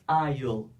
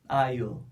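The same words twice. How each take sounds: First: Will is shortened and joined into one syllable. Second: Will is shortened and joined into one syllable.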